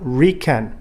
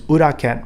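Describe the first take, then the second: First: The word starts directly with an r sound. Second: The word starts with an oo vowel sound. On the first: The speaker calls it wrong. "It is not riken. There's no word like that in Japanese" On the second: The speaker calls it right. "It is uraken"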